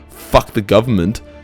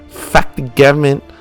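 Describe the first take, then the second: First: It is said in the speaker's ordinary accent. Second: It is said in a put-on foreign accent. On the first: The speaker calls it wrong. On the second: The speaker calls it right.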